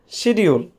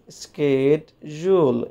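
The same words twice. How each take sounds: First: It is said with a Bengali pronunciation. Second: It is said with an American pronunciation. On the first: The speaker calls it wrong. "we are Bengali, we pronounce this word schedule" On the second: The speaker calls it right. "in American English, it is pronounced schedule"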